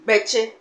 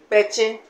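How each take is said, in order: Both takes have the same delivery.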